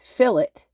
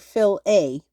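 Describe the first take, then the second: First: The word ends with a short 'it' sound. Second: The word ends with a long 'ay' sound. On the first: "like the word fill followed by it" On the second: "like the word fill followed by with a long a sound"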